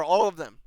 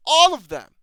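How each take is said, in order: First: Said in the usual way. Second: "All of them." repeated much louder, punched on "All". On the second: Real, not acted. Fed-up reviewer repeats himself, "All of them." louder on "All". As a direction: hit "All" hard the second time, louder.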